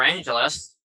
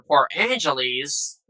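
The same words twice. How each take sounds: First: "Angeles" ending in a short -us; corrected Angeles. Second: "Angeles" ending in a long -eez; mispronounced Angeles. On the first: Gamer correcting the port's name, pronounced AN-juh-lus. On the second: Gamer naming the destination port, mispronounced as Angel-eez. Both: Real, not acted. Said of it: "It's, it's pronounced Angeles".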